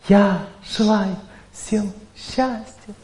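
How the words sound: It is said with strong emotion. This does not bring victory over fate. "первый тип – это эмоциональный звук"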